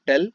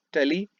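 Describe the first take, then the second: First: "tell" said in one syllable; one-syllable reading of "tell"; French tax name pronounced. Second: "tele" said in two syllables; two-syllable reading of "tele"; French tax name pronounced. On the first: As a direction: say "tell" short, ending on the l. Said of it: "I pronounce it like tele or tell". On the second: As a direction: say "tele" as te-lee, ending in a vowel. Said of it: "I pronounce it like". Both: Shown as a demonstration.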